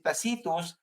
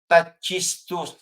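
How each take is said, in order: First: The 'c' is said as an 's' sound. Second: The 'c' is not said as an 's' sound. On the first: This is the Greek reading of the name. "ang basa po natin sa wikang Greek si Tacitus" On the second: This is how the name is said in Italy. "pag pinonounce po yan dito po sa Italia"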